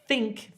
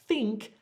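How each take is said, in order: First: The word starts with a th sound. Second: The same.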